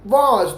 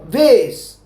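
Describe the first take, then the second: First: The vowel sounds like 'ah', as in 'father'. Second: The vowel sounds like 'ay', as in 'face'. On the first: "लेकिन London वाले बोलते हैं वॉस" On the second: "America वाले इसको क्या बोलते हैं मालूम है? इसको बोलते हैं वेस"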